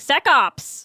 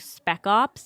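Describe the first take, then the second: First: The first word has no p sound. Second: The first word has a p sound. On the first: The speaker calls it wrong. "I kept saying sec ops" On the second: The speaker calls it right. "It's like spec ops"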